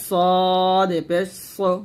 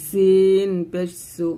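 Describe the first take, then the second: First: সদ পেশ সো with a thick স; সদ heavy and slow; heavy sad. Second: সিন পেশ সু with a light স; সিন thin, slow; thin sin. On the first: (মোটা সদ পেশ সো) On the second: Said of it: "সিনটা জিহ্বাটা নিচে দাঁতে লাগাবো". (পাতলা সিন পেশ সু) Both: Shown as a demonstration.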